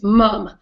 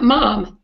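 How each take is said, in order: First: "mum" said the British way, short uh vowel; British pronunciation. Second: "mom" said the American way, open ah vowel; wrong pronunciation. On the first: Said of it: "it's mum, M U M, like the British". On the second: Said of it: "It's not mom, M O M, it's mum". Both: Shown as a demonstration.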